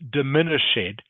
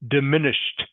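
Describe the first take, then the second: First: The ending is not a t sound. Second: The ending is a clear t sound. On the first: The speaker calls it wrong. "So it is not diminished" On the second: The speaker calls it right. "ed is pronounced like t"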